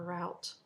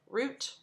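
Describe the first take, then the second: First: The vowel sounds like the one in out. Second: The vowel sounds like the one in boot. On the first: The speaker uses this only for the word meaning to pillage. "I don't say route unless I'm, you know, pillaging something" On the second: This is how the speaker says it. "Root, never route"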